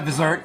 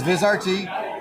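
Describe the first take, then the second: First: The ending is blended into one word, 'vizert'. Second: The ending is spoken as the separate letters R, T. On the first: The speaker calls it wrong. "You're not the only one that pronounces it Visert" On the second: The speaker calls it right. "But it's VisRT"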